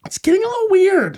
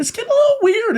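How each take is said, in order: First: Silly falsetto catchphrase; high squeaky voice. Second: Even higher, silly falsetto; high squeaky voice. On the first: Running joke, squeaky put-on voice. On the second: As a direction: squeal the catchphrase. Repeats the joke even higher. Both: Pretend.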